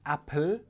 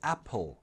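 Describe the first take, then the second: First: The final L is light, with a clear tongue-tip sound. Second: The final L is dark, with a hollow back sound. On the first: The speaker calls it wrong. "So it's not apple" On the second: The speaker calls it right. "it's apple. ... Just change the light L to a dark L"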